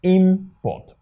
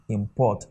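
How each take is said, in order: First: Import as a noun, IM-port; stress on first syllable. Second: Import as a verb, im-PORT; stress on second syllable. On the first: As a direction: punch IM in import, then drop on port. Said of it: "if this import here is to be a". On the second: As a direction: let import start low and put the weight on PORT. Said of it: "but the second one will rise". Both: Shown as a demonstration.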